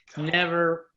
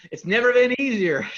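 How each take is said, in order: First: Said in the usual way. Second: Big, bright sales-pitch delivery, high and loud; infomercial voice. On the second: Acted. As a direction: sell it like a TV ad host. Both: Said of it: "I sound like an infomercial now".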